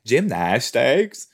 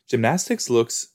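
First: Gymnastics slowly with a rising end; drawn-out question. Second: Said in the usual way. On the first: Shown as a demonstration. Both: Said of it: "I don't know why I said it like that".

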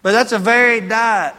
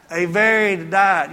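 First: Said in the usual way. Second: Slow, with "varied" leaned on; teaching the difference, slow and heavy on "varied"; stress on varied. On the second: Shown as a demonstration. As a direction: spell out "varied" word by word, slowly. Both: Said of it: "You understand the difference?".

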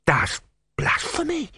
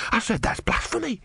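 First: High, slow, muffled gasp of horror; horrified, hand over mouth. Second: High, clearer horrified repetition; horrified, mouth uncovered. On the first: Disciple shocked by his god, muffled high horror. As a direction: gasp it slowly through a covering hand. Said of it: "put his hand over his mouth in horror". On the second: Disciple repeating himself with hand removed, clear high horror. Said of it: "Brother removed his hand". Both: A narrator's reading.

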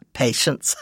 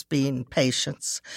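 First: Breathy chuckle on patience; laughing self-correction. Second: Said in the usual way. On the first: Real, not acted. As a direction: laugh it off and fix the word patience.

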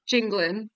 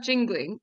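First: "jingling" said as jinglin', ending in n; dropped g. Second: "jingling" with a full -ing at the end. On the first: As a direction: drop the final g of "jingling". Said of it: "like, an apostrophe". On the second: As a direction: say "jingling" ending in the ng sound. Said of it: "not jingling, it's jingling". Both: Shown as a demonstration.

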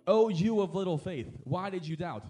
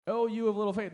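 First: Jesus' words said slowly, leaning on Oh; a slow, sorrowing reproach to Peter; slow gentle rebuke. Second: Oh pitched higher and lifted on the repeat; a raised, musing repeat of Oh, you of little faith; echoed with emphasis. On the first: Acted. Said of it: "he said". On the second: Shown as a demonstration. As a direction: echo the line higher, savouring it. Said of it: "repeats the quote".

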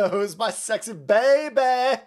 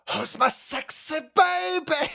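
First: Put-on slow, louder cooing at a baby; drawn-out creepy coo; creepy baby talk. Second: Put-on much higher, slow creepy baby talk; creepy falsetto coo. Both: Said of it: "That's so fucking creepy".

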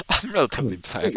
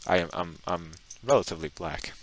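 First: Tickled by the claim; amused. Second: Said in the usual way. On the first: Real, not acted. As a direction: say it through amusement. Repeats it after a laugh.

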